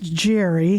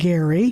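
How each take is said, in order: First: The name starts with a soft J sound. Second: The name starts with a hard G sound. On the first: The speaker calls it wrong. "Some people have thought that that is pronounced Jerry" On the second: The speaker calls it right. "he pronounced his last name Gerry ... but it's a hard G"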